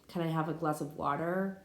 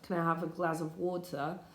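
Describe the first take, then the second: First: It is spoken in an American English accent. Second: It is spoken in a British English accent. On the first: "that be American" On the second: "That be British English"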